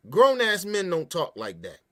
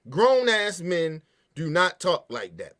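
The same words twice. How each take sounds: First: Said in the usual way. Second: Slow, with "do not" split apart and hit hard; deliberate, slow "do not" for emphasis; emphatic restatement. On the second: Shown as a demonstration. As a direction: spell out "do not", slowly and firmly.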